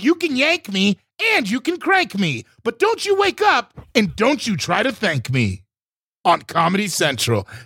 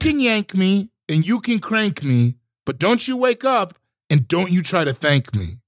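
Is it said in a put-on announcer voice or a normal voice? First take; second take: announcer voice; normal voice. First: It is said in a put-on announcer voice. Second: It is said in a normal speaking voice.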